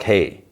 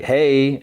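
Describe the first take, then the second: First: Said in the usual way. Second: Higher-pitched hey; lifted, higher greeting; acted greeting. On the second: [name] greets Riri, acted.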